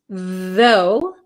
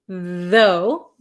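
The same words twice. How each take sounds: The two takes are said the same way.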